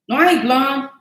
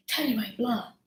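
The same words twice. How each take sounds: First: Said in the usual way. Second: Softer mumbled repeat of "I ain't blonde". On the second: Real, not acted. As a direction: drop the voice and tuck "I ain't blonde" away to yourself. Repeats denial, softer take.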